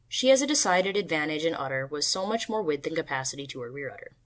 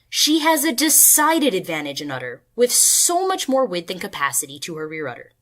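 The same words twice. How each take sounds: First: It is said in a flat pitch. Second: It is said with varied pitch and emphasis.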